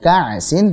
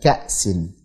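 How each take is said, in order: First: The glottal stop is weak or blurred. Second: The glottal stop is pronounced clearly. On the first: The speaker calls it wrong. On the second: The speaker calls it right.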